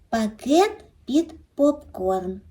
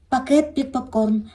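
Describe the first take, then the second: First: The phrase is said once at a slow pace. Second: The phrase is said quickly and repeated.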